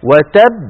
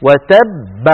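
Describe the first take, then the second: First: "وتب" with the final baa pressed higher and louder; pressed qalqala. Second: "وتب" closed with a light bounce on the baa; qalqala stop. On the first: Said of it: "فبقولنا وتب". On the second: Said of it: "عندما نقف على قوله تعالى". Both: Shown as a demonstration.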